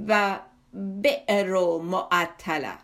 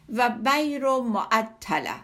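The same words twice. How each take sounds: First: بئر said slowly as "be'r" with a clear glottal stop; slow, pedantic correction, sounding the hamza in "بئر"; lower, deliberate "و بئر معطله" with a clear hamza catch in "بئر"; corrected Arabic pronunciation. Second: بیر said slowly as "bir" with a plain long i and no glottal stop; slow, careful "و بیر معطله" with "bir" and no hamza; mispronounced Arabic. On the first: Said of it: "بایستی میگفتی". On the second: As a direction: drawl out "بیر" as "bir", the naive scholar's wrong way. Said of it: "درست نگفتی". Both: Retold or imitated.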